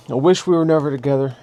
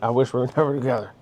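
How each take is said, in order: First: Louder quote with "we" stressed; quoted hurtful line. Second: Quick, laughing through "never"; laughing quote. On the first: Speaker quoting what he never said in fights, stressed. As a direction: say it as a cutting jab. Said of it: "I never said to anybody". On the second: Speaker admitting he meant it, laughing. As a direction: toss it off fast with a laugh. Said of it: "I really meant". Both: Retold or imitated.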